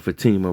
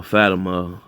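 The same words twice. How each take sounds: First: Fatima said fuh-TEE-muh; second-syllable stress. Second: Fatima said FAT-uh-muh; first-syllable stress. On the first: Correcting the character's name to Fatima as fuh-TEE-muh. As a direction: lean on the middle of Fatima, long "ee". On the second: Recapping who rallied the group, says Fatima as FAT-uh-muh. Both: Real, not acted. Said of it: "or Fatima rather".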